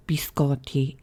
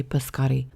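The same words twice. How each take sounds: First: "biscotti" with a clear "bee" first syllable; careful Italian-style "biscotti", opening on "bee"; Italian pronunciation. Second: Said in the usual way. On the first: Shown as a demonstration. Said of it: "it might be pronounced biscotti in Italian". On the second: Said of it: "I'm just gonna say biscotti".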